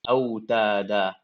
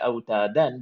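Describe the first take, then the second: First: The word ends on a long a vowel. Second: The word ends with an n sound. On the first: The reciter stops at this word. "I'm stopping at these fathatan" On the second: The reciter continues to the next words. "If I was to continue, I would say"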